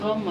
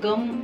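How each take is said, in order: First: The word starts with a throaty gh sound. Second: The word starts with a plain hard g. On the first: The speaker calls it right. "गम आहे" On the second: The speaker calls it wrong. "गम असा नसतो उच्चार"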